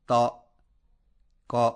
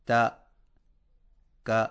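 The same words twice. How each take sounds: First: تا، کا said thick and heavy, rounded; wrongly heavy fatha. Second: تا، کا with a light, thin "a"; thin fatha. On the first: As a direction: make تا and کا sound heavy on purpose. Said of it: "اس کو موٹی آواز میں یوں پڑھنا". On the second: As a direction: keep تا and کا light, not heavy. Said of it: "تو باریک آواز میں پڑھا جائے". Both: Shown as a demonstration.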